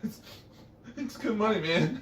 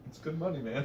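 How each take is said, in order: First: The voice wobbles and shakes. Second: The voice is steady.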